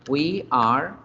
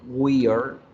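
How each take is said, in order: First: Two separate full words are pronounced. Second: It is shortened into one contracted syllable.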